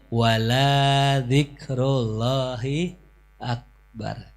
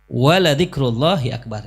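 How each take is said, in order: First: The vowel in wala is drawn out long. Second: The vowel in wala is said short. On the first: The remembrance of God is not the greatest. The speaker calls it wrong. "jangan dibaca" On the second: The remembrance of God is the greatest. The speaker calls it right. "Enggak dibaca panjang"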